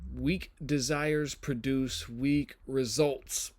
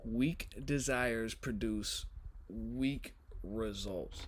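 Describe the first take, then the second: First: The voice is at its ordinary pitch. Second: The voice is pushed lower with extra bass. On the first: The speaker calls it wrong. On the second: The speaker calls it right.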